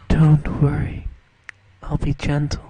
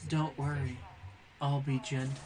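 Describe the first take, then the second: First: Loud, low, deadpan imitation of the actress; imitating the actress. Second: Quiet, low mock-sultry line; soft seductive quote. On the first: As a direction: blurt it out like a flat movie line. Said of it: "she says it like this". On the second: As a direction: breathe it gently like a come-on. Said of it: "and says".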